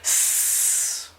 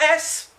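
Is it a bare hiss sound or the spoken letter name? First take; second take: hiss; letter name. First: Only a short hissing s sound is made. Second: The full letter name ess is said. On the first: This is the sound the letter makes. The speaker calls it right. "today's sound is S" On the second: This is the name of the letter. The speaker calls it wrong. "Not S. S has got nothing to do with it"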